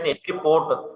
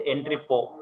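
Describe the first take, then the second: First: "port" ending in an audible, wrongly added T; final T sounded. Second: "port" spoken as "po", no T at the end; silent final T. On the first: Teacher showing students what to avoid, T sounded in "port". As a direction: say "entry port" with a hard T on the end. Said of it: "You should not pronounce it as entry port". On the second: Teacher showing students the correct word, silent final T in "port". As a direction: say "entry port" with the T left off, ending on "po". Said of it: "We have to pronounce as entry port". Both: Shown as a demonstration.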